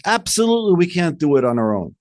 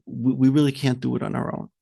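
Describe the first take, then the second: First: Emphatic agreement. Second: Soft, halting, low-voiced giving up; hesitant mock admission. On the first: Retold or imitated. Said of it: "The answer should have been is". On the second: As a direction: falter quietly as if defeated. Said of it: "the Meraglim said".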